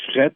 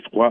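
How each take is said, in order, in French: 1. Le mot a une voyelle e ouverte et un t final. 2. Le mot se termine par une voyelle wa, sans consonne. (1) "Ça a devenu fret au Québec" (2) "et froid en France"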